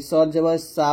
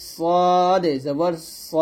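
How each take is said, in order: First: সা with an open aa, light and plain; thin saa. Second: Very slow সদ জবর স, rounded heavy o; thick so. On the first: Teacher mimics a common mistake, thin saa. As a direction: say সা as Bengali aa. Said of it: "এই প্রত্যেকটা উচ্চারণ কিন্তু ভুল". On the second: Teacher leads repeat-after-me, slow thick so. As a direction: draw it out, ending thick on স. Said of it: "সুন্দরভাবে উচ্চারণটা করতে হবে". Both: Shown as a demonstration.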